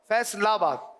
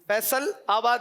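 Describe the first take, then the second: First: The two parts run together without a break. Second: The two parts are said separately, with a break. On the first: The speaker calls it right. "लाम मुत्तसिल हो जाएगा" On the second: The speaker calls it wrong. "फैसल आबाद नहीं"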